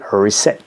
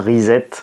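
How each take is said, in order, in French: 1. Il se prononce avec des sons anglais. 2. Il se prononce avec des sons français. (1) "pour la bonne prononciation en anglais" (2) "je continuerai à dire le grand reset"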